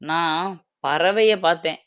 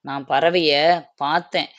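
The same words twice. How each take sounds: First: The stress is on the second word. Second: The stress is on the last word. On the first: It was a bird that was seen. "நான் பறவைன்ற இடத்துல stress குடுக்குறேன்" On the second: The bird was seen, not heard. "பார்த்தேன் அப்படிங்கிற இடத்துக்கு நம்ம அழுத்தம் குடுக்குறோம்"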